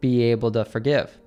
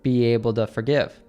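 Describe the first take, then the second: First: The t in 'to' is a soft d. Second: The same.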